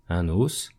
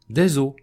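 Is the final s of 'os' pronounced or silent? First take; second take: pronounced; silent. First: The final s sound is pronounced. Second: The final s sound is silent. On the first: There is one bone. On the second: There are several bones.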